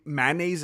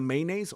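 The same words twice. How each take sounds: First: The first syllable sounds like 'ma'. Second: The first syllable sounds like 'may'. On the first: The speaker calls it wrong. "they say mayonnaise" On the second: The speaker calls it right. "instead of mayonnaise"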